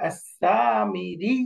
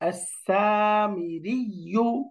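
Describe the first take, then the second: First: The word stops on a held doubled 'y' sound. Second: The word ends with a 'yu' syllable.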